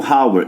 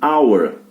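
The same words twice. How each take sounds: First: The word starts with an audible h sound. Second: The word starts with a vowel, h silent. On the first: The speaker calls it wrong. "embora comece com H, eu não leio hour" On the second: The speaker calls it right. "eu leio hour. Então tem som de vogal"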